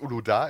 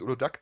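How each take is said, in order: First: The word ends in a vowel, no final consonant. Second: The word ends with an audible k sound. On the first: The speaker calls it right. "es heißt Uloda" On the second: The speaker calls it wrong. "es heißt nicht Ulodak"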